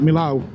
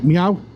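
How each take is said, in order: First: The name is said with a clear L sound. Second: The name is said like a cat's meow. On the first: The speaker calls it wrong. "I've been saying it wrong obviously for years, so I call it Milau" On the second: The speaker calls it right. "pronounced it like a, as a cat, like meow. Apparently that's how the French say it"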